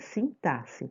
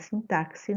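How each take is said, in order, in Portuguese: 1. O x é pronunciado com som de s. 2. O x é pronunciado com som de ks. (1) "E fala assim mesmo, é sintaxe, tá?" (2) "Não é sintaxe, não"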